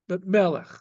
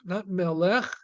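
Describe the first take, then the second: First: The stress is on the first syllable. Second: The stress is on the last syllable. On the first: The speaker calls it right. "but on the first syllable" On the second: The speaker calls it wrong. "The accent is not on the last syllable"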